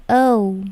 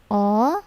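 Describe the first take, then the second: First: "O" gliding into "oo", drawn out; rounded diphthong on "O"; English OU glide. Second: "O" as one flat vowel with no glide; unmoving monophthong "O"; wrong pure O. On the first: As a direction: say "O" as a long "oh-oo". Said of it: "mereka menyebutkannya". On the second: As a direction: say "O" as plain "aw". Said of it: "tidak bilang O". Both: Shown as a demonstration.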